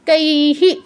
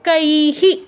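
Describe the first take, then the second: No difference in how they are said.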